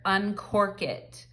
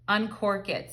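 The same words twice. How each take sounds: First: Slow and drawn out, each word weighed; slow, deliberate relay of a heard phrase; slow channeled message. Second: Said in the usual way. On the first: Retold or imitated. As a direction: repeat the message slowly, as if it were dictated to you. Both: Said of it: "I just heard".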